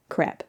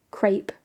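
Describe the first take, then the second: First: "crepe" said as krep, short e like step; "crepe" rhyming with step; English crepe. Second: "crepe" said as krayp, long ay vowel; "crepe" rhyming with tape; French crepe. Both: Shown as a demonstration. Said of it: "their accent makes crepe sounds like crap".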